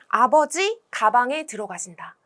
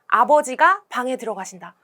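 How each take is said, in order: First: The break comes right before the syllable 가. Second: The break comes right after the syllable 가. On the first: Father goes into the bag. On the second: Father goes into the room.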